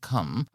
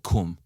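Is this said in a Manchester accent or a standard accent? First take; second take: standard; Manchester. First: It is said in a standard accent. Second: It is said in a Manchester accent. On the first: "instead of saying come" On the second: "in Manchester they say cum"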